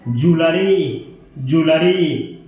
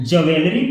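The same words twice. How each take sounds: First: ज्वेलरी said "joo-luh-ree"; correct pronunciation. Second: ज्वेलरी said as "jaw-vel-ri", the common mistake; wrong pronunciation. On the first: (ज्वेलरी का सही उच्चारण, "जूलरी") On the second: (ज्वेलरी का गलत उच्चारण, "ज़वेलरी") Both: Shown as a demonstration. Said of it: "इसका right pronunciation है".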